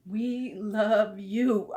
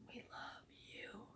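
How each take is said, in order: First: Drawn out, each word separate; slow and deliberate. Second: Breathy whisper, pitched a bit up. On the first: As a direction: say it slowly and mean it. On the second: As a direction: whisper it close. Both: Real, not acted. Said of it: "whispered then said aloud".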